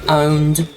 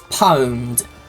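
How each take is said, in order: First: The word begins with a vowel sound. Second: The word begins with a p sound. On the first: It sounds less dated. "I just prefer owned" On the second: It sounds a bit old-fashioned. "it's pronounced. It's it's pwned"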